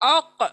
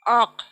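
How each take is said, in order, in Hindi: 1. आख़िरी 'k' दोहरी गूँज के साथ उछलता है। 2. आख़िरी 'k' एक ही आवाज़ में सपाट रुक जाता है। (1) "आपकी डबल साउंड प्रोड्यूस करेंगी" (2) "एक साउंड होगा किसी का"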